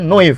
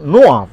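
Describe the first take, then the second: First: The name is pronounced the English way. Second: The name is pronounced the French way. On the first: "Kalau ke bahasa Inggris kan" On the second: "Kalau ke Prancis kan"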